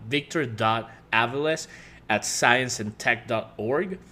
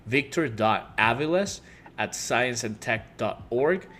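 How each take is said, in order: Both takes have the same delivery.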